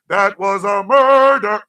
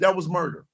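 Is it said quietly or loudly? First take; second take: loudly; quietly. First: It is said loudly, almost shouted. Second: It is said at a normal, quieter volume.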